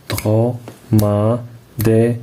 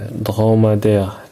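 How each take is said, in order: First: Slowly syllabified. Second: Said in the usual way. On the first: Shown as a demonstration. Teacher spaces out syllables for the pupils. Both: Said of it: "écris le nombre de syllabes".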